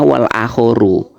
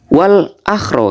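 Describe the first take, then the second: First: The second word is said as three syllables, akhoru. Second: The second word is said as two syllables, akhro. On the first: The speaker calls it right. "Itu bacanya wal akhoru" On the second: The speaker calls it wrong. "salah baca"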